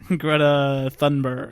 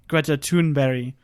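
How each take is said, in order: First: The name is said the American way. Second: The name is said the non-American, native way. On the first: The speaker calls it wrong. "perhaps best known to our ignorant American listeners" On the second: The speaker calls it right. "the correct pronunciation"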